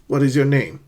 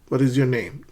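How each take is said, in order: Both takes have the same delivery.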